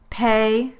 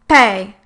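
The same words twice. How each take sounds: First: The P is released with normal strength. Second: The P is released with extra force. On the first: "a normal P sound" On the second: "followed by a strong one"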